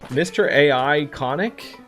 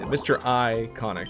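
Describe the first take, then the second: First: The start is spelled out as letters A, I. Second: The start is said as the word iconic. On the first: The speaker calls it wrong. "you probably don't want to pronounce that way" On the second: The speaker calls it right. "it's Mister I Conic"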